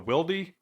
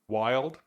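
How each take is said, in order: First: The name ends with an added ee sound. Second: The name is said as one syllable. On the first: This is how the speaker has always said it. "what I always called is the Wildy" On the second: This is how a co-host says it. "you've called it Wild"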